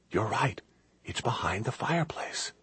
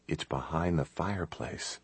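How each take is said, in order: First: Soft, higher hushed voice; whispered. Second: Very soft, hushed explanation; whispered. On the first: Kate telling Chris he is right, whispering. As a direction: whisper it as a realization, lifting at the end. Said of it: "She whispered". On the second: Chris telling Kate about the hidden passage, hushed. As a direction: keep the voice right down, hushed. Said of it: "He whispered". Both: A narrator's reading.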